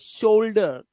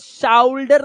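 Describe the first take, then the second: First: The first vowel sounds like 'oh' in go. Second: The first vowel sounds like 'ow' in cow. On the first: The speaker calls it right. "ये शोल्डर" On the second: The speaker calls it wrong. "शाउल्डर नहीं है"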